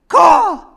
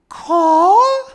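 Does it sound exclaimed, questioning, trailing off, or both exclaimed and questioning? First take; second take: exclaimed; questioning. First: It is said as a sharp exclamation. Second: It is said with a questioning rise.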